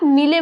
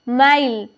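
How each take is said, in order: First: The vowel is a short i sound. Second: The vowel is an eye sound. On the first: The speaker calls it wrong. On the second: The speaker calls it right.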